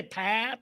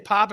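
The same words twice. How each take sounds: First: "pop" with a flattened vowel, like "pap"; teasing "pop" pronounced "pap"; mock Michigan vowel. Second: Said in the usual way. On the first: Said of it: "That's what people say to us Michiganders". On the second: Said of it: "Up here we say pop".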